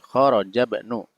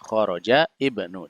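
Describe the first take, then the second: First: Ibnu's first vowel drops, linked to kharaja. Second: Ibnu starts with its own vowel, read apart. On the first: "kalau kemudian dibacanya uh, apa namanya nyambung maka menjadi kharaja ibnu" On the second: "kalau dibaca terpisah bisa kharaja ibnu"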